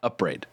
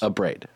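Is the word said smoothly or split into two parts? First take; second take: smooth; smooth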